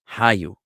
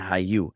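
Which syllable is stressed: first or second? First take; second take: first; second. First: The stress is on the first syllable. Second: The stress is on the second syllable. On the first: "the emphasis, if it was a past tense verb, would be on the ha" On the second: "rather than hayu"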